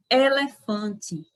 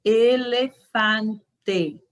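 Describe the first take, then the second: First: "elefante" with a nasal an and a ti ending; Portuguese elefante. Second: Very slow "Elefante", every e closed; slow Spanish elefante. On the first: Teacher showing how Brazilians say elefante. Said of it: "nós costumamos pronunciar". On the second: Teacher modeling elefante slowly. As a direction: spell it out slowly, closed e's. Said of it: "Pronuncie em suas casas". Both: Shown as a demonstration.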